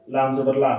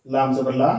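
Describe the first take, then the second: No difference in how they are said.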